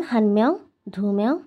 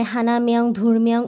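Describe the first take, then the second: First: "হান মেয়ং, ধু মেয়ং" with the number endings dropped; shortened joined forms. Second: "হানা" and "ধুর" kept whole before each "মেয়ং"; full separate forms. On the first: Teacher giving learners examples, "হান" and "ধু" joined onto "মেয়ং". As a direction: run "হান" and "ধু" straight into "মেয়ং". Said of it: "ওরা এইভাবে একসাথে করে বলে ফেলে". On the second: Teacher showing the unused way, "হানা" and "ধুর" in full. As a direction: say "হানা মেয়ং, ধুর মেয়ং" with every final sound of the numbers. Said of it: "এভাবে বলে না". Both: Shown as a demonstration.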